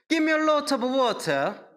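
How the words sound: It is spoken in a British English accent. "영국식으로 하면은 이렇게 해요"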